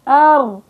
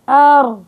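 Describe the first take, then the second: The two takes are said the same way.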